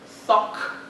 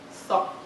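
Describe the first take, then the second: First: The final stop is audibly released. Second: The final stop is held without release. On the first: The speaker calls it wrong. "somebody would not say" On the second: The speaker calls it right. "with the final um, unreleased"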